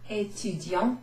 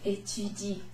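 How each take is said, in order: First: The word ends with a nasal vowel sound. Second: The word ends with a plain vowel, nothing after. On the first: The speaker calls it wrong. "I'm not saying étudiant" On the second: The speaker calls it right. "I'm saying étudie. ... that bit at the end is basically silent"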